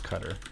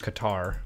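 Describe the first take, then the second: First: It is said with a native-style pronunciation. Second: It is said with an American pronunciation. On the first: "they would say it as Qatar" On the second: "like as Americans would say it"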